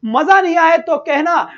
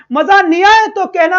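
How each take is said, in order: First: Said in the usual way. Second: Higher and louder, punching आए; teacher loudly challenging his students; emphatic promise. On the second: Real, not acted. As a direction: shout the promise out with conviction.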